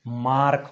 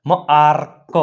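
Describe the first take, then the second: First: Said in the usual way. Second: માર્ક split as મ-આર-ક; teacher breaking માર્ક into sounds; sounded out. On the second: Shown as a demonstration. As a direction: hold the આ of માર્ક, detach the ક. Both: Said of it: "એનો ઉચ્ચાર આ થાય છે".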